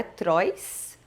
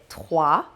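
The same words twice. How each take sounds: First: "trois" as Portuguese "trois" with rolled r and s; wrong trois. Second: "trois" as "trwa", no final s; French trois. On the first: Teacher shows the common mistake to students. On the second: Teacher models the correct trois to students. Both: Shown as a demonstration. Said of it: "Também não é trois".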